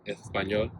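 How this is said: The word is said with a lisping Spain accent. This is how people in Spain say it. "official Spanish has like kind of like a lisp"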